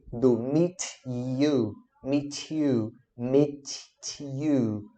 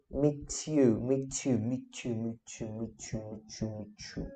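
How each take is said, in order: First: Slow 'meet ... you' with the words held apart; slow, separated. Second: 'meet you' repeated, tightening into 'mee-chu', fading softer and lower; gradually merging. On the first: Teacher showing a beginner's pauses, slow and separated. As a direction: stretch 'meet' and 'you', pausing between them. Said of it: "a gente começa a pausar". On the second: Teacher showing words blending with practice, gradually merging. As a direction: run 'meet you' together, trailing away quietly. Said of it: "Ela vai difundindo". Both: Shown as a demonstration.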